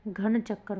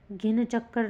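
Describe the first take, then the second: First: घन चक्कर starting "ghan", aspirated; corrected form. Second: घिन चक्कर starting "gin", with i; wrong form. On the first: Teacher giving students the correction, घन as "ghan". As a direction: breathe the gh and use short a in घन. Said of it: "घन चक्कर होगा". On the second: Teacher showing students the error, घिन as "gin". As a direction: put a short i and hard g in घिन. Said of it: "घिन चक्कर नहीं". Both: Shown as a demonstration.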